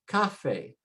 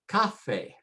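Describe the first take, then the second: First: The stress is on the first syllable. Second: The same.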